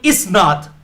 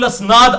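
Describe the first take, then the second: First: The word begins with an 'i' vowel. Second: The word begins with an 'a' vowel. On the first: The speaker calls it right. "ये लफ्ज है सहीउल इसनाद" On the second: The speaker calls it wrong. "मैं अक्सर बोलता था"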